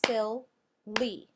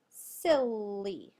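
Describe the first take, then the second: First: Silly, syllable by syllable; clapped-out syllables. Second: Silly in one piece with a long held L; silly said slowly as one word; drawn-out whole word. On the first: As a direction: Silly cut into two loud beats, sil, lee. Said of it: "Tap it out or clap it out". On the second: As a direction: stretch silly into sillll-lee without a break. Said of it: "Our next word is". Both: Shown as a demonstration.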